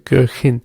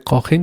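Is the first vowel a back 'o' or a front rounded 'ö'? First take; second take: front ö; back o. First: The first vowel is a front rounded ö. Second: The first vowel is a plain back o. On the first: The speaker calls it right. "you say Köchin" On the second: The speaker calls it wrong. "You don't say Kochin"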